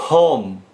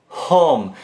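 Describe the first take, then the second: The two takes are said the same way.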